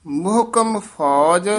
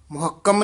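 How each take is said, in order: First: ਮੁਹਕਮ as "muh-kam", with a single k. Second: ਮੁਹੱਕਮ with a doubled, held k. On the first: Teacher models the wanted reading, single k in ਮੁਹਕਮ. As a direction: close the first syllable on h in ਮੁਹਕਮ. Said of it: "ਮੁਹੱਕਮ ਨਹੀਂ ਕਹਿਣਾ". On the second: Teacher shows the mistake to avoid, doubled k in ਮੁਹੱਕਮ. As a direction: say "mu-hak-kam", stressing the middle. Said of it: "ਨਹੀਂ ਕਹਿਣਾ". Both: Shown as a demonstration.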